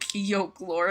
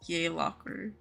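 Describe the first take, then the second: First: The first syllable sounds like 'yoke'. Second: The first syllable sounds like 'yay'. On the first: The speaker calls it wrong. "my friends and I have been saying it yolk lore. Yolk like egg yolk" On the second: The speaker calls it right. "It's how you say it"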